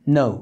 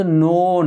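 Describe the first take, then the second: First: "no" with oh-oo glide, shorter; correct pronunciation. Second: "no" with long pure Bangla o; wrong pronunciation shown. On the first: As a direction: round "no" off into oo. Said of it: "এটা হচ্ছে no". ("no" নৌ-এর মতো উচ্চারণে) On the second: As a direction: stretch "no" without any glide. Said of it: "এটা কিন্তু no না". ("no" Bangla ও-কারে টেনে) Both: Shown as a demonstration.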